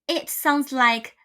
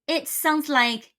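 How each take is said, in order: The two takes are said the same way.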